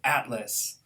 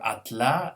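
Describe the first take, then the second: First: The stress is on the first syllable. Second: The stress is on the last syllable. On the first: The speaker calls it right. "instead of" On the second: The speaker calls it wrong. "pronounced the last syllable as stress"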